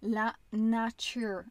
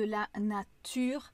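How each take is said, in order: First: The t sounds like a ch sound. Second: The t sounds like a plain t. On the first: The speaker calls it wrong. "une erreur commune que j'ai chez mes élèves" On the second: The speaker calls it right. "on prononce bien le T là comme un T"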